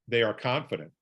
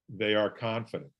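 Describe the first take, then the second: No difference in how they are said.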